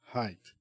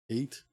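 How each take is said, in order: First: The word starts with an h sound. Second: The word starts without an h sound. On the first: The speaker calls it right. "As in high" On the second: The speaker calls it wrong. "I have to learn how to say that word"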